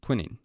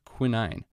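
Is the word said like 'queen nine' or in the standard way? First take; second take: standard; queen nine. First: The word does not sound like 'queen nine'. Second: The word sounds like 'queen' plus 'nine'. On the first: It is the real name of the drug. The speaker calls it right. "It's actually called quinine" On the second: It is a memory aid linked to the crowned queen with a nine. The speaker calls it wrong. "I'm intentionally mispronouncing quinine to help you remember it better"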